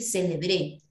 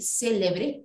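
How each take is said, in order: First: The stress is on the last syllable. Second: The stress is on the first syllable.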